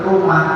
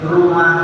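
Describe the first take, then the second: No difference in how they are said.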